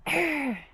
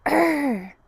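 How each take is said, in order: First: A firmer warrior growl; business growl. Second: A half-hearted little warrior growl; growl, but not quite meaning it; weak growl. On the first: Teacher growls for the kids so they mean business. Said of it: "Oh, that was awesome". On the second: Teacher's first try at a warrior growl, too timid. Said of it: "that didn't sound like business". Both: Shown as a demonstration.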